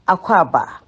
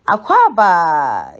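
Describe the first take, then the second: First: The word is said short and clipped. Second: The word is said with an American-sounding accent. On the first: The speaker calls it right. "It's said in a short way" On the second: The speaker calls it wrong. "It's not Aquaba. You know, that's too Americanized"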